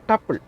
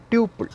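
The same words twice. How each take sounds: First: "tuple" said as TUP-ul; short-u pronunciation. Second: "tuple" said as TYOO-pul; long-u pronunciation. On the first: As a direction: say "tuple" to rhyme with "supple". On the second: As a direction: say "tuple" with a "tyoo" first syllable. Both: Shown as a demonstration. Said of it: "pronounce it".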